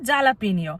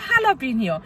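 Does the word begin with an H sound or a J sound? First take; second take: J sound; H sound. First: The word begins with a J sound. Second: The word begins with an H sound. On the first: This is the spelling-based way of saying it. "যেটাকে বলে জালাপিনিও" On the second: This is the local way of saying it. "এখানকার উচ্চারণে এরা বলে হালাপিনিও"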